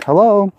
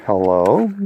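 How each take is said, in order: First: A lightly raised woman's hello; a hint of a female caller greeting him. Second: His own lower questioning hello, rising at the end; plain puzzled hello back to the caller. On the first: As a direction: imitate her higher-pitched hello. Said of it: "I hear this, uh, female voice". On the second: Retold or imitated. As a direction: ask who it is. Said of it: "I'm like".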